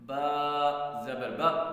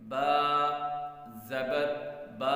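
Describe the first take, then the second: First: The vowels are cut off abruptly with a jerk. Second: The vowels are stretched out long. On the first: "झटका देना क्या होता है" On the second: "लंबा करना किसे कहते हैं"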